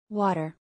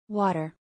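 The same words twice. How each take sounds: No difference in how they are said.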